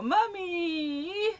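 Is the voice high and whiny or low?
high. It is said in a high, whiny voice.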